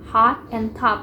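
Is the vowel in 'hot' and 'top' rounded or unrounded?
unrounded. The vowel is said with spread, unrounded lips. "Kalau di standard English itu kan cara membacanya itu hot and top. Mereka menggunakan open back unrounded vowel"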